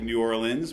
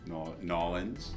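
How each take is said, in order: First: It is said with a general, non-local pronunciation. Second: It is said with a local New Orleans pronunciation. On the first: "like New Orleans" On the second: "pronounced like a like a local"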